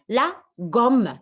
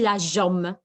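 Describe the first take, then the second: First: The word begins with a hard g sound. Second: The word begins with a soft zh sound. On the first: The speaker calls it right. "Parce que la lettre J n'est pas suivie par E et Y" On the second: The speaker calls it wrong. "Et pourquoi on n'a pas dit la jomme?"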